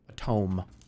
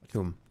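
First: The vowel is 'oh', rhyming with home. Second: The vowel is 'oo', sounding like tomb. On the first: The speaker calls it right. "instead of a tome" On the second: The speaker calls it wrong. "I also call it a, a tomb instead of a tome"

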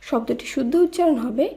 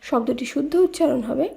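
No difference in how they are said.

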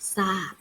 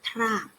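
First: The word begins with a plain s sound. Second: The word begins with a t followed by r. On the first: The speaker calls it right. "เราจะอ่านออกเสียงว่าทราบ" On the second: The speaker calls it wrong. "เราจะไม่อ่านออกว่าทราบ"

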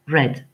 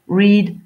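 First: The vowel is short, like 'red'. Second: The vowel is long, like 'reed'. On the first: This is the past participle of the verb. "se prononcent comme la couleur rouge" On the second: This is the base form of the verb. "La base verbale de reads, c'est read"

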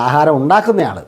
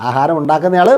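Both takes have the same delivery.

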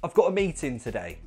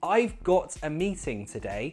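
First: 'Meeting' has a glottal T and ends in 'in'. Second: 'Meeting' has a full T and ends in 'ing'. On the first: "it could sound more natural if you add the glottal T and contract that ing to an in"

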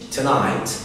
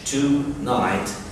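First: The first vowel is a weak, short schwa. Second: The first vowel is a full, clear o. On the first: The speaker calls it right. "ال O ما بتتقالش تقريبا خالص أو في حاجة صوت خفيف اسمه شوا" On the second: The speaker calls it wrong. "مش tonight"

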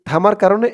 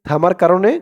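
The two takes are said the same way.

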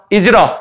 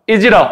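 Both takes have the same delivery.

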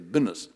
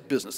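First: It is said in a Southern US drawl. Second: It is said in a standard, non-Southern accent. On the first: "they say business down South" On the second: "They don't say business"

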